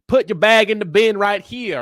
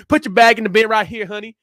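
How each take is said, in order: First: Slow, louder, higher Texan twang imitation; imitated Texan accent. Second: Higher, louder drawled Texas honey; imitated Texan accent. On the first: Imitating a TSA lady ordering him at Dallas, Texan accent. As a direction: mimic a bossy Texas airport agent. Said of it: "guess what she looked like based off that accent". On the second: Repeating the TSA lady's order at Dallas, Texan accent. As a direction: ham up a sassy Texan agent. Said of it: "based off that accent".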